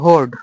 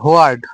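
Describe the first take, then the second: First: The word is said as one syllable. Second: The word is split into two syllables. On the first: The speaker calls it right. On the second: The speaker calls it wrong.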